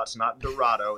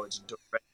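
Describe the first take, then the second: First: Dorado said the wrong way, with the middle syllable as rah; wrong pronunciation. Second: Dorado said the local way, with the middle syllable as ray; local pronunciation. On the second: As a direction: Dorado said do-RAY-do, the way people in Arkansas say it. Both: Shown as a demonstration.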